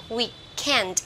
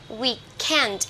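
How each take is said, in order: The two takes are said the same way.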